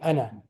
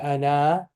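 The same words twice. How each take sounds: First: The final vowel is short and quick. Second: The final vowel is drawn out long. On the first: The speaker calls it right. "it will be ana, ana. Just very quick" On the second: The speaker calls it wrong. "So it will not be ana"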